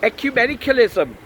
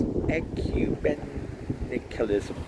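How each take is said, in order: First: High, loud Welsh priest voice; indignant, quick Welsh delivery; Welsh accent. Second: "Ecumenicalism" very slowly, bit by bit; slow, tentative "Ecumenicalism"; sounding out. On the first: A narrator's reading. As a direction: fire it off confidently in a Welsh accent. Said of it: "trying to do a Welsh accent". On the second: Shown as a demonstration. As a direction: practise "Ecumenicalism" carefully, stretching each syllable. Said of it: "not very good on new words".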